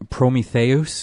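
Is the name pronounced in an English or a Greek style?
Greek. The name is said in a Greek-style pronunciation.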